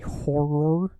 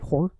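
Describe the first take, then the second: First: It is said slowly, with both syllables pronounced clearly. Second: It is said quickly, almost as one syllable. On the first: "I have to try to enunciate my words better"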